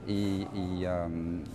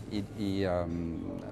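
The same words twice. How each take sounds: The two takes are said the same way.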